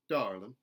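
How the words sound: The R sound is lightly pronounced. "a contemporary Southern, where those R colorations are put back in"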